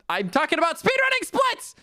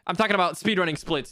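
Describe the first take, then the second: First: High-pitched protesting cry; worked-up yelp, pitch shooting up; exasperated outburst. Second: Said in the usual way. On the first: Real, not acted. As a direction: insist shrilly that you were misunderstood. Repeats clarification in mock exasperation.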